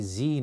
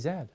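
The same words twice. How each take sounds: First: The letter name is said the American way. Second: The letter name is said the Canadian way. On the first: "in America we say Z" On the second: "in Canada we say Z"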